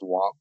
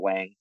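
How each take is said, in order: First: The name is said with Mandarin Chinese pronunciation. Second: The name is said with North American English pronunciation. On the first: "In Chinese, it's pronounced Wang" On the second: "or Wang, that's pronounced here in Canada and USA"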